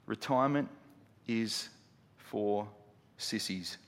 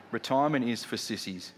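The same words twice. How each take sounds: First: "Retirement... is... for... sissies", long pauses, sinking softer; deliberate word-by-word delivery. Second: Said in the usual way. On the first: Real, not acted. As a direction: set each word of "Retirement is for sissies" apart, dropping away. Announced key line, word by word.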